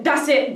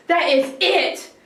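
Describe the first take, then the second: First: Said in the usual way. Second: "That is it" slowed, each word firm; slow firm stress. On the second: Retold or imitated. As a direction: lay down the law word by word.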